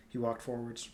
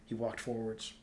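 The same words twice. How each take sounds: The two takes are said the same way.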